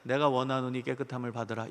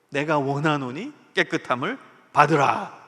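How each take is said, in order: First: It is said flatly, without feeling. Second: It is said with strong, earnest feeling.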